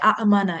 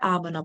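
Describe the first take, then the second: First: Two vowels separated by a glottal catch. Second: One smooth long vowel with no break. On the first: The speaker calls it wrong. "এইভাবে তো আসলে বলাটা স্মুথ না" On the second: The speaker calls it right. "Smooth করে দেওয়া হয়"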